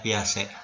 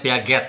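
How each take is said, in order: First: The name is pronounced in the French way. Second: The name is pronounced letter by letter as spelled. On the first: This is how the name is actually read. The speaker calls it right. "tapi dibacanya" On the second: This is how the name is written. The speaker calls it wrong.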